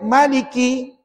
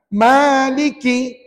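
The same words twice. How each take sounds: First: The long vowel is cut short to one beat. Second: The long vowel is held for two beats. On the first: The speaker calls it wrong. "tiba-tiba baca Maliki" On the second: The speaker calls it right. "kena baca dua harakat"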